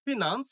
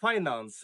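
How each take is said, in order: First: "ফিনান্স" as fi-nans; short i opening "ফিনান্স"; common mispronunciation. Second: "ফাইন্যান্স" as FAI-nans; correct pronunciation. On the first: Teacher shows how learners read it, "ফিনান্স" mispronounced as fi-nans. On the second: Teacher models "ফাইন্যান্স" correctly as FAI-nans. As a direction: open "ফাইন্যান্স" with an eye diphthong, falling tune. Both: Shown as a demonstration. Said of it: "সঠিক উচ্চারণ হবে".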